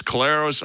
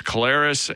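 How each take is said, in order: First: Collaros in the first way he has heard; variant pronunciation. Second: Collaros in the other version he knows; alternative pronunciation. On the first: Host quoting a version he's heard over the years, variant pronunciation. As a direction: say Collaros as one common variant. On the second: Host offering the version he knows to the quarterback, alternative pronunciation. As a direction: say Collaros as the contrasting variant. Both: Shown as a demonstration. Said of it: "the pronunciation of it".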